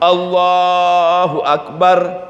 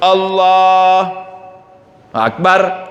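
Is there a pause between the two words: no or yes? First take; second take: no; yes. First: The two words run together without a pause. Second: There is a pause between the two words. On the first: The speaker calls it right. "langsung Allahu Akbar" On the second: The speaker calls it wrong. "jangan jangan pakai berhenti. Allah Akbar nggak boleh"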